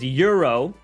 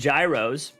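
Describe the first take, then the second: First: The word begins with a 'y' sound. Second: The word begins with a 'j' sound. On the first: This is the original, proper pronunciation. "They say the proper way to pronounce it is euro" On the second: This is how Americans say it, following the spelling. "in America we call them gyros"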